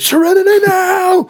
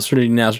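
First: It is screamed loudly. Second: It is said slowly and calmly.

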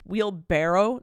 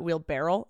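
First: The word ends with a 'barrow' sound. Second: The word ends with a 'barrel' sound. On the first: The speaker calls it right. "I just realized it's wheelbarrow" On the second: The speaker calls it wrong. "not wheelbarrow"

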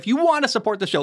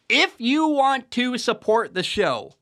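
First: It is said fast. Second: It is said slowly.

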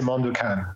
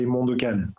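First: The name is pronounced the English way. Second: The name is pronounced the French way. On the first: "if somebody asks in English, I would say Mondokane" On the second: "in French, when somebody asks me what's the name of my project, I say Mondokane"

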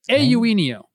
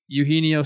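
First: The name begins with an 'ay' sound. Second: The name begins with a 'you' sound. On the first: The speaker calls it right. "You got to do the A first" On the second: The speaker calls it wrong. "I've been calling Eugenio Suarez forever"

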